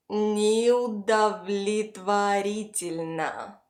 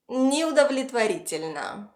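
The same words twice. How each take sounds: First: Неудовлетворительно very slowly, syllable by syllable; slow pronunciation model. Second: Said in the usual way. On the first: Shown as a demonstration. Teacher models a long word for repetition, very slowly. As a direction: stretch out Неудовлетворительно so learners can follow. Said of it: "Repeat after me". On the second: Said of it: "pronounce it all together".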